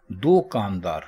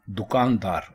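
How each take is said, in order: First: دو کاندار split as "do kaandaar", two separate words; wrong split pronunciation. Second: دکاندار with a short "du", one word; correct pronunciation. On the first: Teacher demonstrating the wrong form, دو کاندار said as "do kaandaar". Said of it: "اب دو کاندار کا اگر آپ لفظی معنی". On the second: Teacher giving the correct form, دکاندار as "dukaandaar". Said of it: "درست ہے دکاندار". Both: Shown as a demonstration.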